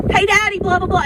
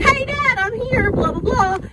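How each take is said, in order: First: Said in the usual way. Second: Pitched well higher, calling out to wake him; louder call. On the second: Retold or imitated. Daughter calling louder to her unmoving dad. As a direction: raise the voice to rouse a sleeping father. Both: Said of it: "I came back louder".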